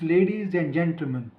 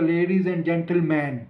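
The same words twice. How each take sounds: First: The last syllable is reduced to a schwa. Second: The last syllable has a full 'man' vowel. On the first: The speaker calls it right. "No, it's" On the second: The speaker calls it wrong. "कोई ये तो नहीं बोलता"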